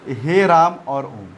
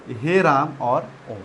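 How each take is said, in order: First: Said in the usual way. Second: हे राम और ओम stretched long and slow; प्लुत स्वर की तरह लंबा खींचकर; drawn out. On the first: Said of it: "प्लुत स्वर क्या है". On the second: Shown as a demonstration. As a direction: hold the vowels of हे राम और ओम extra long. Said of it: "ये प्लुत स्वर है".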